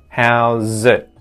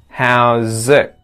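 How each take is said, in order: First: The final T is stopped with the tongue tip. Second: The final T is stopped with the tongue back. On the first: "where it touches the roof of the mouth and it stops the airflow" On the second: "it's actually as if I'm saying ek, like ek, without releasing it"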